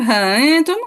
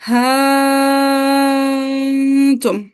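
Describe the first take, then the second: First: A short vowel is followed by a softened catch. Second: The first vowel is stretched long without a catch. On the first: "तस्हील हमजा मा हस्फ अलिफ" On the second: "इब्दाल मुअम्मद"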